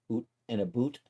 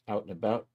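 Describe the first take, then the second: First: Put-on "oot and a boot" in a joking Canadian accent; mock Canadian accent. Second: Said in the usual way. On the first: Streamer teasing his Canadian friends, mock Canadian accent. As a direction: exaggerate the Canadian vowels, "oo" for "ou". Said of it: "our Canadian friends".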